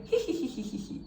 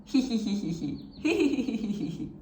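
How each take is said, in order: First: Hee hee hee hee hee hee whispered with no voice, just breath; voiceless hee. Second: Light demo giggle of hee sounds; mock giggle. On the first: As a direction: breathe the hee out unvoiced, almost a hiss. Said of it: "When you get rid of the E". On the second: Teacher showing students a laughing hee hee. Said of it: "Can you try?". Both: Shown as a demonstration.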